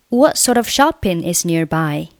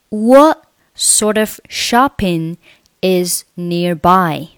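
First: The sentence is read at normal, faster pace. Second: The sentence is read at a slow pace. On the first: "我们再用常速再读一下" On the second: "我们把整篇对话再慢速读一下"

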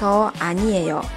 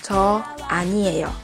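First: It is said in a calm, relaxed tone. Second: The same.

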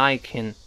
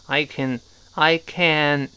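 First: The vowel in 'can' is weak and reduced. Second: The vowel in 'can' is full and clear.

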